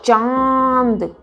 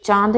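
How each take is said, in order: First: चांद long, higher, vowel through the nose; nasal vowel. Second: चांद short, with a plain n; wrong चांद. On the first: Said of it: "वो अंदर से निकलती". (चांद, चंद्रबिंदु अंदर से) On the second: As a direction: say चांद quickly with a hard n. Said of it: "चांद नहीं". (चांद, छोटा, न के साथ) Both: Shown as a demonstration.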